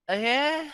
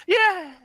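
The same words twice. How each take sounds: First: High, hesitant questioning yeah; half-hearted crowd cheer, confused; imitated uncertain cheer. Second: High, loud mock cheer; short burst of crowd excitement; imitated audience cheer. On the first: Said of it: "And everybody was like". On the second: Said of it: "you hear the audience going".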